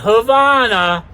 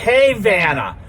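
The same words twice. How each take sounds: First: It is said with the usual outside pronunciation. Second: It is said with the local town pronunciation. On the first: This is how people from elsewhere say it. The speaker calls it wrong. "Not Havana" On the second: This is how people from the town say it. The speaker calls it right. "if you're from this town, it's called Havana"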